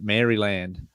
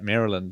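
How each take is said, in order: First: Maryland is said with an Australian-style pronunciation. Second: Maryland is said with an American-style pronunciation. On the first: "most Australians would say it Maryland" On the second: "I watch so much American content that I, I, yeah, I say it Maryland"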